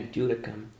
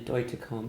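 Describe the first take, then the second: First: The middle consonant sounds like a soft D. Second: The middle consonant is a clearly pronounced T. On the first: The speaker calls it wrong. "they used to say Christina Dudicum. I'm like, what?" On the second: The speaker calls it right. "It's actually Deutecom with with the T pronounced"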